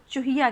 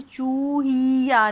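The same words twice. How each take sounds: First: Said in the usual way. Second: चूहिया dragged slowly as "chooo-heee-ya"; drawn-out vowels. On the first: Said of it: "आप इसे चूहिया कहते हैं". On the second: Shown as a demonstration. Teacher shows how you don't say it, vowels stretched. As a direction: hold the oo and ee of चूहिया far too long. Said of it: "आप इसे चूहिया नहीं बोलते".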